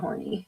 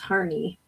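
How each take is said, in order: First: The first vowel sounds like the one in 'core'. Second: The first vowel sounds like the one in 'car'. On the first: The speaker calls it wrong. "not horny" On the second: The speaker calls it right. "Harney is Harney"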